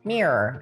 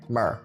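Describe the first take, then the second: First: It is said in an imitated American accent. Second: It is said in the speaker's own non-American accent.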